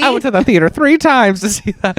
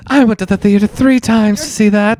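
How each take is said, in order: First: Put-on high old-timer voice; old moviegoer reminiscing; very old man. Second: Put-on high old-timer voice again; old moviegoer reminiscing; very old man. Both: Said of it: "the old man voice time immediately".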